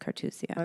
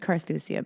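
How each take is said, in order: First: The middle consonant is a plain 't' sound. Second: The middle consonant is a 'th' sound. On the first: This is how the speaker now thinks it is said. The speaker calls it right. "but I think it's Cartusia" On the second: This is how the speaker used to say it. The speaker calls it wrong. "always said Carthusia"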